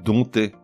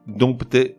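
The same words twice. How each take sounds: First: No p sound is heard before the t. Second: A p sound is heard before the t. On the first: The speaker calls it right. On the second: The speaker calls it wrong.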